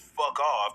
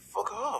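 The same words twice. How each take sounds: First: It is said firmly and coldly. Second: It is mumbled awkwardly.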